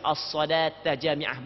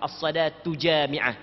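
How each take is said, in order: First: The first word ends in an 'a' vowel. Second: The first word ends in a 'u' vowel. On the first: The speaker calls it right. "hak yang paling comel adalah baca as-salata jami'ah" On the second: The speaker calls it wrong. "bukan as-salatu jami'ah"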